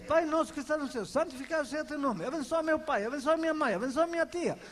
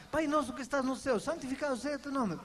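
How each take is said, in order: First: Reeled off fast by habit, mechanical; rote prayer. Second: Rattled-off rote prayer. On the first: Preacher mimicking believers' daily rote prayer, fast and mechanical. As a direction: rush through the memorized prayer like a chore. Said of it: "Todos os dias". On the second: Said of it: "por que que nós falamos". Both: Retold or imitated.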